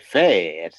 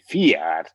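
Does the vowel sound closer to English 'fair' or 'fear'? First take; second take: fair; fear. First: The vowel sounds like English 'fair'. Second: The vowel sounds like English 'fear'. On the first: This is the local dialect form. "But here they say fair" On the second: This is the Mull or Tobermory dialect form. "in Mull or in Tobermory, ... would say fear"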